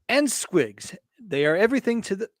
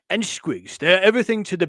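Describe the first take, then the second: First: It is said in a plain, normal voice. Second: It is said in a gruff orc voice.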